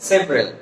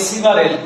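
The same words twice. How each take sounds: First: "সেভারেল" as two syllables, sev-rel; dropped vowel. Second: "সিভারেল" in three syllables, si-va-rel; common mispronunciation. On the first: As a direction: drop the middle vowel of "সেভারেল". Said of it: "এই শব্দটা drop করলে". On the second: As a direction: sound the middle "a" in "সিভারেল". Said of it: "সিভারেল না". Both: Shown as a demonstration.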